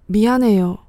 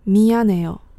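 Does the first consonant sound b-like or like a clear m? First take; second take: b-like; clear m. First: The first consonant sounds close to a b. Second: The first consonant sounds like a clear m. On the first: "你通常听到的念法都是" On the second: "而不是"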